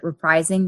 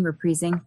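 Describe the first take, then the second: First: "reprising" said re-PRIZE-ing; pronunciation correction. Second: "reprising" said re-PREE-zing, softer; alternative pronunciation. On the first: Cosplayer correcting herself mid-list, re-PRIZE-ing. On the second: Cosplayer unsure of the word, trying re-PREE-zing. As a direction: say "reprising" with a long EE in the middle. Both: Real, not acted. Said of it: "Is it reprising or reprising?".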